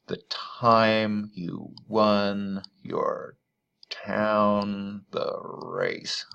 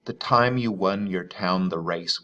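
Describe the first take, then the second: First: Very slow, each stressed syllable in "The time you won your town the race" leaned on; scanning the stresses. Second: Poem recital. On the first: Teacher marking the meter on screen, very slow scansion. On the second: Teacher reading the poem's first line to students, even recital. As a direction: read as a measured line of verse. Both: Shown as a demonstration. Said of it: "I've marked the stresses there".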